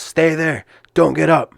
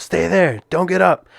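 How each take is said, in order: First: Raised, higher firm order from the referee; ref yelling. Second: Higher, urgent command to stay down; ref yelling. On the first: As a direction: bark the order to stay down. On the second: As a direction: firmly order him not to move. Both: Retold or imitated. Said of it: "kinda yelling at me".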